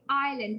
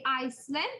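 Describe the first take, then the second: First: The S sound is silent. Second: An S sound is pronounced. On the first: The speaker calls it right. "this S is silent. So we say island" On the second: The speaker calls it wrong. "We don't say Iceland"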